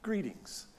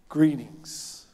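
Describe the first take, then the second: First: Prim, stilted Greetings, much softer, a bit higher; stiff formal greeting. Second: Warm Greetings, said with care; tender greeting. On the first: Preacher mocking how we hear Jesus' word: stiff, cold Greetings. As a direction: say Greetings like a stuffy stranger. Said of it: "Who talks like that?". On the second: Preacher voicing Jesus greeting the women: tender, gentle Greetings. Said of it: "tender and gentle greeting of a friend". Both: Shown as a demonstration.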